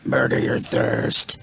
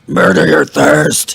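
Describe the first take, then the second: First: It is said at normal volume. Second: It is said loudly.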